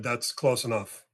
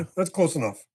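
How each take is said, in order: First: Slow, even warning to stop; calm warning. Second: Firmer repeat, pushed out harder; now you mean it, press the words; firmer warning. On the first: Telling the approaching young man to stop, slow calm warning. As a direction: set a limit calmly, no push yet. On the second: Repeating the warning as the upset man keeps coming, firmer. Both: Retold or imitated. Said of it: "'Cause now I'm starting".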